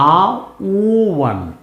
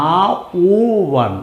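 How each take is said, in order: The two takes are said the same way.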